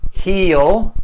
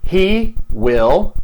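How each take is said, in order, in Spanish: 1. 'Will' se acorta y se une al pronombre. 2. 'Will' se dice como una palabra completa y separada.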